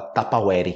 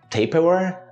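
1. É pronunciado com sotaque do português brasileiro. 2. É pronunciado com sotaque inglês. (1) "no Brasil a gente fala Tupperware" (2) "eu acho que é assim o nome em inglês"

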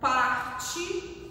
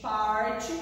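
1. O R é falado do jeito normal do falante. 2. O R é falado do jeito regional paulista.

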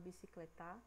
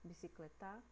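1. A sílaba tônica é a última. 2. A sílaba tônica é a última.

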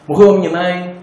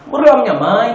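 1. É falado com um sotaque português europeu simples. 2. É falado com um sotaque português angolano. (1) "vais dizer assim" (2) "Com o sotaque de Angola é tipo"

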